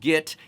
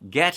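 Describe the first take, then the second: First: The vowel is a closer 'ih'. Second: The vowel is an open 'eh'. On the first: "has become git"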